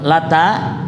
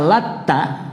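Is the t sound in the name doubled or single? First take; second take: single; doubled. First: The t sound is short, single. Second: The t sound is held long, doubled. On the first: A stone that was a pious man's grave. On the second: A pious man who mixed flour dough for pilgrims.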